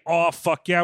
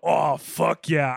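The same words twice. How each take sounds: First: It is said in a casual, pleased tone. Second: It is said in a sultry, sexual tone.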